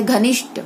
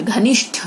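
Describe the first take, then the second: First: घनिष्ठ ending in unaspirated "t"; wrong consonant. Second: Said in the usual way. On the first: Shown as a demonstration. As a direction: drop the breath from the last sound of घनिष्ठ. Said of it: "गलत". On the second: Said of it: "घनिष्ठ होता है".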